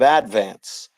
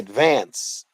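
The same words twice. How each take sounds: First: It is said the way locals pronounce it. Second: It is said the way outsiders pronounce it. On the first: The speaker is from Staten Island. The speaker calls it right. "instead of advance" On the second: The speaker is not from Staten Island. The speaker calls it wrong. "if you try to say advance"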